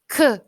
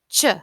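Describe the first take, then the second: First: Two separate sounds are said, k then h. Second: One single blended sound is said, ch. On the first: The speaker calls it wrong. "So you don't say k, h, like C and H" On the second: The speaker calls it right. "You just say ch"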